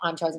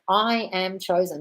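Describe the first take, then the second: First: It is said in a flat, rushed drone. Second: It is said with firm conviction.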